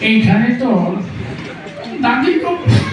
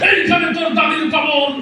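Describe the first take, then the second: First: It is recited in an old man's voice. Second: It is declaimed forcefully like a fiery political speech. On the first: "বুড়ো মানুষ পান খেতে খেতে আসছে... মুরব্বীর আবৃত্তির ঢং ছিল এরকম।" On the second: "রাজনীতির মঞ্চে গরম বক্তব্য দিয়ে অভ্যাস নেতার আবৃত্তির ঢং ছিল এরকম।"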